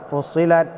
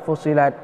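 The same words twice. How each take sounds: The two takes are said the same way.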